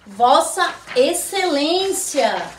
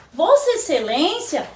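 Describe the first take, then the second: First: Each syllable drawn out slowly for the class; slow model reading. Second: Said in the usual way. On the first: Shown as a demonstration. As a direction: say Vossa Excelência slowly, stressing Vossa. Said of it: "teacher models the title". ("Vossa Excelência" dito bem devagar, sílaba por sílaba) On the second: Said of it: "repeated at normal pace".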